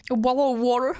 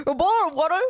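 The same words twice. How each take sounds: First: Laughing, hammed-up British accent; mock British accent. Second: Laughing, louder hammed-up British accent; mock British accent. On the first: Wanting to sound like the Queen of England, laughing mock British accent. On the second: Trying the Queen's accent again, laughing mock British accent. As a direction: push the posh English accent through laughter. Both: Shown as a demonstration. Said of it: "Pardon, c'est très mal dit".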